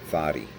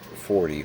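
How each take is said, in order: First: The word is said in a Boston accent. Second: The word is said in a plain standard accent.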